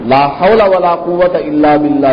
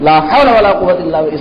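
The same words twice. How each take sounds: First: It is said calmly, every word clearly pronounced. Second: It is said angrily and hastily, words blurred. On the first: The phrase is said with due respect. The speaker calls it right. "ये तो साफ साफ बोलना चाहिए" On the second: The speaker is venting anger at something seen. The speaker calls it wrong. "इस तरह बोलते"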